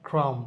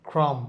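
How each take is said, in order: Both takes have the same delivery.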